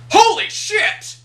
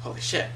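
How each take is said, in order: First: Much higher and louder, slow shocked yell; loud exclamation. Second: Softly muttered under the breath. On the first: Pretend. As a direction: blurt it out loud for the whole room. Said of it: "it's one thing if I was like". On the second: Retold or imitated. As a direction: keep it low, just for yourself. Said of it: "quietly under my breath".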